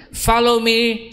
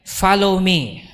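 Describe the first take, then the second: First: Higher and a bit more urgent "Follow me"; the Lord's command. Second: Said in the usual way. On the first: Retold or imitated. Preacher voicing the Lord calling him, raised and urgent. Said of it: "says the Lord". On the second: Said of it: "Sabihin natin".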